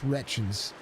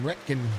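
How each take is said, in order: First: The name ends with a 'chins' sound. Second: The name ends with a 'kin' sound. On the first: The speaker calls it right. "let's say it correctly" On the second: The speaker calls it wrong. "I messed it up bad"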